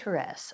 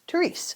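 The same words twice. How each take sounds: First: The name gets its formal, original pronunciation. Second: The name gets a familiar, everyday pronunciation. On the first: "The correct way of pronouncing" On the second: "I knew her as Therese"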